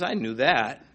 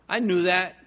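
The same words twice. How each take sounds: First: "I" leaned on, then falling on "knew that"; God hits "I" to say he knew first; stress on I. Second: "knew" pressed hard, "I" left light; God leans on "knew" to say he always knew; stress on knew. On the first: God answers the believer with "I" stressed. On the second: God reassures the believer, pressing "knew". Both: Acted. God's reply, stress shifts.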